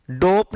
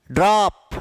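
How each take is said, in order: First: डोप with a closed, rounded ओ; wrong ओ vowel. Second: ड्रॉप with an open ऑ; open ऑ vowel. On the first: Teacher shows students what to avoid, closed ओ in डोप. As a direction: say डोप with a long ओ, as the mistake. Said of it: "डोप नहीं है". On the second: Teacher models ड्रॉप for students, open ऑ. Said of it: "अ का उच्चारण". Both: Shown as a demonstration.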